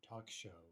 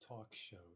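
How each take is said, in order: Both takes have the same delivery.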